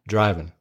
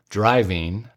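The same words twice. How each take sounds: First: The ending drops the g, sounding like 'in'. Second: The ending is a full 'ing' with the g. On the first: The speaker sounds less educated. "He says, the G is dropped" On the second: The speaker sounds more educated. "Grady never says"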